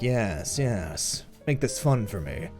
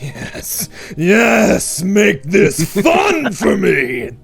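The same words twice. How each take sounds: First: It is spoken plainly, with little acting. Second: It is spoken theatrically, with much acting. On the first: "I was just speaking like" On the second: "if I added more acting to it"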